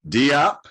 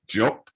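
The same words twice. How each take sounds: First: The name is said the anglicized English way. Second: The name is said the native, non-English way. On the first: The speaker calls it wrong. "we English speakers, we say Diop" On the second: The speaker calls it right. "the correct pronunciation is Diop"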